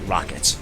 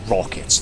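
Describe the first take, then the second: First: The first vowel sounds like an A. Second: The first vowel sounds like a heavy O. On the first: An opponent picked up the weapon. "say rackets, ... an O and an A" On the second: The player picked up the weapon. "you'll very heavily put rockets"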